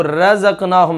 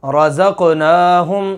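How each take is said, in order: First: रज़क़नाहुम quickly with a thin, light ra; wrong thin ra. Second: रज़क़नाहुम said slowly with a thick, full ra; heavy ra example. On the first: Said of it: "अब इसको रज़क़नाहुम नहीं पढ़ना". (रज़क़नाहुम पतली रा के साथ, गलत तरीका) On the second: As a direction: draw out रज़क़नाहुम, ra heavy and rounded. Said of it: "मिसाल के तौर पर". (रज़क़नाहुम धीरे से, मोटी रा के साथ) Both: Shown as a demonstration.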